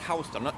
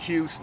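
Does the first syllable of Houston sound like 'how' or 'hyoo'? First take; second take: how; hyoo. First: The first syllable sounds like 'how'. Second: The first syllable sounds like 'hyoo'. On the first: It names the street in New York. The speaker calls it right. "Som uttalas Houston" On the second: It names the city in Texas. The speaker calls it wrong. "inte Houston"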